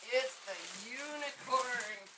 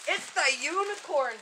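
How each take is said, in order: First: Slow and softer, savoring each word; slow, soft reveal. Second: Said in the usual way. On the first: Shown as a demonstration. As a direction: drag it out in a hush for effect. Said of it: "repeated reveal, drawn out". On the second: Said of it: "reveal to viewers, then repeated".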